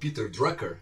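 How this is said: The name is said with an American accent.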